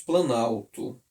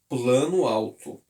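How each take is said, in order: First: The o of plano is dropped, one word. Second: The o of plano is pronounced separately. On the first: The speaker calls it right. "Nós tiramos o O e pronunciamos planalto" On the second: The speaker calls it wrong. "a gente não pronuncia a palavra assim, ó"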